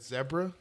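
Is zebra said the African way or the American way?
African. The word is said the African way. This is the way the speaker picked up from a show. The speaker calls it wrong. "I said zebra instead of zebra"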